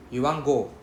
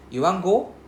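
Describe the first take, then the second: First: YOU WANT GO dropping down on GO; YOU WANT GO with a falling ending; falling statement intonation. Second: YOU WANT GO climbing high on GO; YOU WANT GO with a raised, louder question ending; rising question intonation. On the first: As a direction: state it as fact, letting GO fall. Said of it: "falling intonation, means we are trying to state a fact". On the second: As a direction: ask it, lifting GO sharply. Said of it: "rising intonation, means we're asking a question". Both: Shown as a demonstration.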